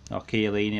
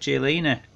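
First: The name has an Italian-style pronunciation. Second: The name has an English-style pronunciation.

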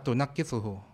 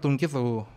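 First: It is said with five syllables, tu-naq-qi-su-hu. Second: It is said with four syllables, tun-qi-su-hu. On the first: "เชคอ่านว่าตุนักกิซูฮู" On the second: "ตอนแรกอ่านว่าตุงกิซูฮู"

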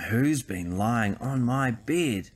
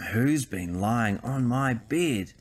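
First: It is said in a growly father bear voice. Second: The same.

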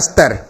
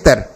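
First: An extra long 'aa' vowel is added inside. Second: It is said without any added long vowel. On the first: The speaker calls it wrong. "कुछ कुछ क्षेत्रों में इसको बोलते हैं स्तर" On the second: The speaker calls it right. "ये शब्द स्तर"

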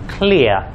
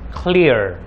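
First: The final r is soft and barely heard. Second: The final r is strong and clearly heard. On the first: "In English, mereka akan mengucapkan clear" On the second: "Dalam American English, mereka akan mengucapkan clear"

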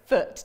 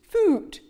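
First: The vowel is short, as in book. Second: The vowel is long, as in moon. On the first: The speaker calls it right. "So we know it's foot" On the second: The speaker calls it wrong. "Wouldn't it be funny if I'd used oo instead of uh? It would say foot"

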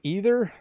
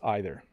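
First: The first vowel sounds like 'ee'. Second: The first vowel sounds like 'eye'. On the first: "pronounced as E, like brie" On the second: "and others I, like bite"

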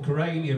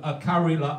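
First: The name is said with its English pronunciation. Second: The name is said with its Finnish pronunciation. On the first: This is how English speakers say it. "as you say" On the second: This is how the locals say it. "as they say"

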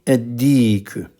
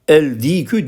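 First: The l is silent and the d is doubled. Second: The l of the article is clearly pronounced. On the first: The speaker calls it right. "Dal ve s şems harfi olduğu için lamlar okunmuyor" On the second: The speaker calls it wrong. "el dikü diyemeyiz"

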